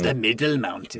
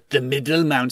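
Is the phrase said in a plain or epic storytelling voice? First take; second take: epic; plain. First: It is said in a grand, epic storytelling voice. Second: It is said in an ordinary speaking voice.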